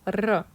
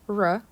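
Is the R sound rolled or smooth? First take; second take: rolled; smooth. First: The R is rolled with a trill. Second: The R is smooth, with no trill. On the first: The speaker calls it right. "this is a rolling R sound" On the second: The speaker calls it wrong. "It's not R as in English"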